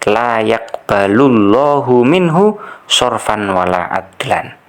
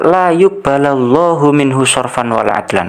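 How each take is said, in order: First: The verb is read 'yaqbalu' with a then u. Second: The verb is read 'yuqbala' with u then a. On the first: The verb is read as active, with God as subject. The speaker calls it right. "Mestinya seperti itu ya" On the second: The verb is read as passive, as if something governs it. The speaker calls it wrong. "yuqbala dibaca nasab padahal nggak ada amil nasabnya"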